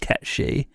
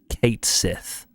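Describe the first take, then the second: First: The name is said with Scottish Gaelic sounds. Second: The name is said with English sounds. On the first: This is the original folklore pronunciation. "in Scottish Gaelic it's pronounced Ketchi" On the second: This is the official pronunciation for the game. "pronounced in an angelicized way"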